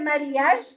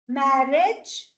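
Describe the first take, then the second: First: The second vowel letter is pronounced aloud. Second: The second vowel letter is not pronounced. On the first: The speaker calls it wrong. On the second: The speaker calls it right.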